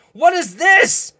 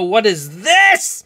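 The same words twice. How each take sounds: First: Pitched way up, drawn out in disbelief; real amazement at the card; a high, slow "what is this"; surprised. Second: Said in the usual way. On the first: Real, not acted. Repeats the question in surprise.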